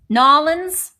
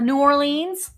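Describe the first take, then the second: First: It is said in a clipped local form. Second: It is said in the ordinary full form.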